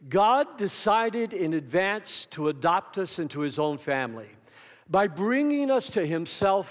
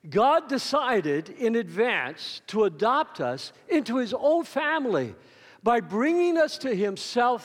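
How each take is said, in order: First: It is read in a plain, calm way. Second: It is read with joyful feeling and intensity.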